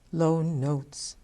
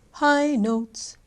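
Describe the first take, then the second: First: Dropped into a low, level pitch. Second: High, raised pitch with more volume. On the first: Coach illustrating low notes in music, low-pitched. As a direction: let the voice sit low. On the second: Coach illustrating high notes in music, high-pitched. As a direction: lift the voice up high. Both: Shown as a demonstration.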